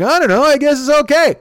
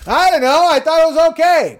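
First: High squeaky mock Dwyer, a touch louder; Dwyer quote. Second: Very high, louder mock scream as Bill. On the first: Telling the guys how Dwyer shrugged, high mock voice. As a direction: lightly mimic Dwyer shrugging it off. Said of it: "He's like". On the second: Correcting the quote to Bill's loud high scream. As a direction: shriek it like Bill did at the table. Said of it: "this is Bill".

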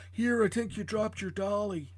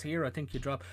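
First: Higher, earnest kindly policeman; gentle cop voice. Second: Said in the usual way. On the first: Acted. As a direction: play the sweet helpful cop. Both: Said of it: "That was your best performance all night".

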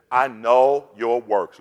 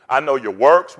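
First: Slow, weighty, each word set down; slow scripture reading. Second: Said in the usual way. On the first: Shown as a demonstration. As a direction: read it slowly so every word lands. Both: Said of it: "Let's go through 'em".

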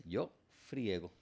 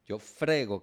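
First: "friego" slow and softer, stressed on "ie"; diphthong ie. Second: "frego" slow, with a plain stressed e; frego, no diphthong. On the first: Teacher shows the resulting form, slow diphthong in "friego". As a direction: glide i into e in "friego". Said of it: "esa E dictonga en ñe". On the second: Teacher shows the unruled form, slow plain-e "frego". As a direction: stretch "frego" without any i glide. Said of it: "la fuerza de pronunciación". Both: Shown as a demonstration.

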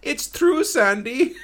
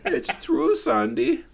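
First: High, loud imitated German accent; squeaky German accent quote. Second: Very high imitated German accent. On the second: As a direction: repeat it higher in German accent. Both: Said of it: "hear him in the background twice go".

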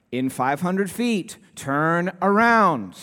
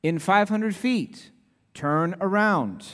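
First: Slow satnav voice, louder on turn around; the nagging navigation voice won't give up; mock GPS insisting; insistent GPS voice. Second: Slow, even satnav voice; lightly voiced GPS prompt; imitating the GPS voice. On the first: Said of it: "looks around to the next U-turn". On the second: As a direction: mimic the phone's navigation voice. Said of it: "the voice very kindly comes on and says".

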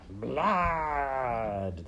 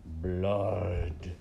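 First: High, long, falling rat cry; rats chorusing. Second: Sung, long, drawn-out creature voice; sung, draw the word out in a rat voice; singing rat. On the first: Whole pack agreeing on blood, rats chorusing. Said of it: "they all agreed together". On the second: Lone rat scenting blood, singing it out. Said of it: "sang a rat". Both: A narrator's reading.

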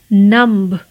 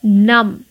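First: नम्ब with the b sounded; mispronounced numb. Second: नम with a silent b; correct numb. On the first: Teacher shows the wrong नम्ब with b. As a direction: say नम्ब ending on a b. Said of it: "नम्ब नहीं कहना है". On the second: Teacher gives the right नम without b. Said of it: "नम्ब नहीं कहना है आपको". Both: Shown as a demonstration.

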